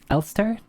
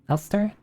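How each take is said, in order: Both takes have the same delivery.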